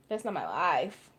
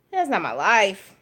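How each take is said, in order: First: Much softer, leaning on "not"; soft stress on not. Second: Said in the usual way. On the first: Real, not acted. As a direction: drop your voice and press "not" in "That's not my life.". Repeated, softer emphatic take.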